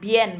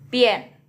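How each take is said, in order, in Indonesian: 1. Kata ini diawali dengan bunyi b. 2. Kata ini diawali dengan bunyi p. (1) "Bukan bien bacanya" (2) "tapi pien"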